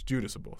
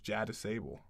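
First: The first part sounds like 'Judas'. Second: The first part sounds like 'jetty'. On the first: The speaker calls it right. "the correct pronunciation is Judasable" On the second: The speaker calls it wrong. "it's a J-A, so it's Jettisable"

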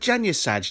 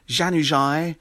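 First: The name is said as it is spelled in English. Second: The name is said with foreign-style pronunciation. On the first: The name is read the way it looks. The speaker calls it right. "He looks like Janusaj. Just say it as it is" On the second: The speaker mimics commentators showing off the native pronunciation. The speaker calls it wrong. "commentators that try and announce the name of the player in the accent"

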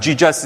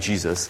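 First: The name is said with a Korean accent. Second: The name is said with an American accent.

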